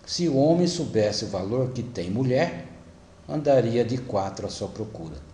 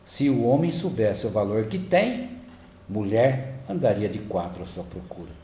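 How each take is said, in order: First: There is a pause after the word 'mulher'. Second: There is a pause after the word 'tem'. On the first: A man would crawl looking for the woman he undervalued. "colocou a vírgula depois da palavra mulher" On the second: A woman would crawl looking for the man who knew his worth. "se for homem que colocou a vírgula"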